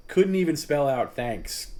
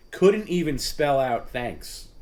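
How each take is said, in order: First: Louder and higher, drawn out in disbelief; slow, indignant disbelief. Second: Slow, indignant disbelief. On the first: Host repeating the complaint to his audience, slow and incredulous. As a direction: hammer home how absurd the reply was. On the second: Ranting in disbelief at Perry. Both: Real, not acted.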